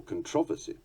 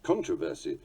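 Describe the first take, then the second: First: "controversy" as con-TROV-ersy; weight on the second syllable of "controversy"; second-syllable stress. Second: "controversy" as CON-troversy; weight on the first syllable of "controversy"; first-syllable stress. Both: Shown as a demonstration. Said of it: "a vexed issue and subject to much".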